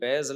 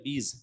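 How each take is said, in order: First: The vowel is an "ai" sound. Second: The vowel is an "ee" sound. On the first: The speaker calls it wrong. "ये बैज लफ्ज गलत है" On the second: The speaker calls it right. "अय्याम बीज होता है"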